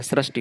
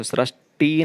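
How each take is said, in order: First: सृष्टि with short final i; correct form. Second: सृष्टि slowed, with drawn-out final "tee"; wrong form. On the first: Teacher giving the correction, सृष्टि with short ending. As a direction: keep the "ti" of सृष्टि brief. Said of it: "सृष्टि होता है". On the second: Teacher rejecting a spelling, सृष्टि with long "tee". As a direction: stretch the last vowel of सृष्टि. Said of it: "सृष्टि नहीं होता". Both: Shown as a demonstration.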